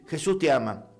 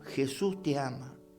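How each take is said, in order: First: It is said casually, like a routine. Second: It is said earnestly, from the heart.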